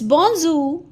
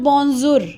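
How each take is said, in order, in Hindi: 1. अंतिम R हल्के से बोला जाता है, लगभग सुनाई नहीं देता। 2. अंतिम R पूरा बोला जाता है, जैसा लिखा है। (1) "it ends with R, but we pronounce it as bonjour" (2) "It's not bonjour"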